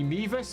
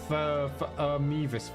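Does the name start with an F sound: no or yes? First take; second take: no; yes. First: The name starts with an M sound. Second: The name starts with an F sound. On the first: "you ignore the first letter when pronouncing them" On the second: "that really looks like Fmevis to me"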